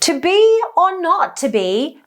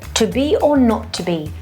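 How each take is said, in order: First: The voice sounds high, thin and tight. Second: The voice sounds deep, open and resonant. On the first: "with a lifted larynx in high position" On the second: "Let me show you"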